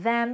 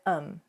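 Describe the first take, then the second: First: The word is said in its full form. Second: The word is reduced to a weak form. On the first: "instead of them" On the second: "you hear um"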